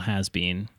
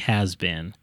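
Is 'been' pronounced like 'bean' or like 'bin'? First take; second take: bean; bin. First: The word 'been' has a long 'ee' vowel. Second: The word 'been' has a short vowel. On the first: The speaker calls it wrong. "Even if they say bean, it's a real has been. That feels weird and wrong" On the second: The speaker calls it right. "Feel like it should be has been"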